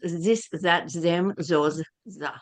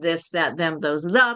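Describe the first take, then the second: First: The th sounds are replaced, German style. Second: The th sounds are spoken as English th. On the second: "the unaspirated"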